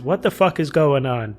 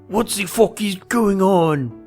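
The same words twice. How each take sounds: First: It is said in the speaker's ordinary accent. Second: It is said in an imitated French accent.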